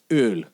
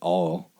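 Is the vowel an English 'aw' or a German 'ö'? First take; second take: German ö; English aw. First: The vowel is a rounded German umlaut sound. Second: The vowel is an English 'aw' sound. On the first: The speaker calls it right. "umlaut O and L, and it's Öl" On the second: The speaker calls it wrong. "instead of saying all"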